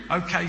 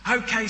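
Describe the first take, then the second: First: Said in the usual way. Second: High, bright "Okay"; enthusiastic. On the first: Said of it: "said the man". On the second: A narrator's reading. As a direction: make "Okay" leap up with delight. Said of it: "said the woman enthusiastically".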